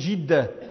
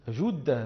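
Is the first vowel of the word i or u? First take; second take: i; u. First: The first vowel is i, as in Jidda. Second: The first vowel is u, as in Judda. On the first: The speaker calls it wrong. "وأهل جدة يقولون جدة فيكسرونها" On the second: The speaker calls it right. "والفصيح أن يقول الناس جدة بضم الجيم"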